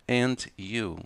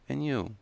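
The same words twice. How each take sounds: First: It is said slowly with the d sound. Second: It is said quickly without the d sound. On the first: "Vai falar devagar?" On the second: "Vai falar rápido?"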